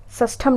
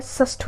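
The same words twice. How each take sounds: First: षष्ठम ending in 'tham'; wrong form. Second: षष्ठ ending on 'shth', no m; correct form. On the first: Teacher showing the mistake, 'am' ending on षष्ठम. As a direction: add a final m to षष्ठम. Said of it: "षष्ठम नहीं होता है". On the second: Teacher correcting students, षष्ठ without the 'am'. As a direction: cut षष्ठ off after th. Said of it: "षष्ठ होता है". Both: Shown as a demonstration.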